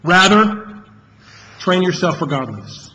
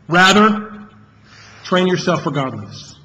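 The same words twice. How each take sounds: First: The word "rather" carries the main stress. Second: The word "rather" carries the main stress.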